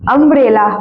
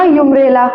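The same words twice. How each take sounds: First: अम्ब्रेला with an opening short "uh" vowel; teacher modelling अम्ब्रेला with an "uh" onset; correct pronunciation. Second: यूम्ब्रेला with a "yoo" sound at the start; mock misreading यूम्ब्रेला with "yoo" for "uh"; wrong pronunciation. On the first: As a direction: say अम्ब्रेला starting on "um", no y-glide. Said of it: "अम्ब्रेला पढ़ते हैं ना". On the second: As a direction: say यूम्ब्रेला opening on a y-glide, "yoom". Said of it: "ये नहीं पढ़ते ना". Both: Shown as a demonstration.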